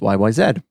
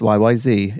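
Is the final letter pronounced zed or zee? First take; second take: zed; zee. First: The last letter is said as zed. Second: The last letter is said as zee. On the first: This is how it is said outside the US. "If you're not, but you're a native English speaker, then it's YYZ" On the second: This is how it is said in the US. "If you're from the US, it's YYZ"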